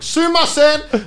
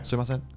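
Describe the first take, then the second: First: It is shouted at full volume. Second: It is said at a calmer, lower volume.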